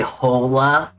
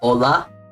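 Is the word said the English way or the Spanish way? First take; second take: English; Spanish. First: The word is said with an English pronunciation. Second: The word is said with a Spanish pronunciation. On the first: The speaker calls it wrong. "that's really, really incorrect" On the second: The speaker calls it right. "you're gonna want to say hola"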